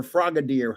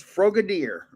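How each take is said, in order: First: Frogadier with an open "ah", like FRAH-ga-deer; short-O first syllable. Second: Frogadier with a long O, like FROH-ga-deer; long-O first syllable. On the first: Card collector offering the other way to say a name, Frogadier as FRAH-ga-deer. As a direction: say Frogadier opening like the word frog. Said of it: "however you say it". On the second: Card collector offering one way to say a name, Frogadier as FROH-ga-deer. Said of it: "or Frogadier, however you say it". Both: Shown as a demonstration.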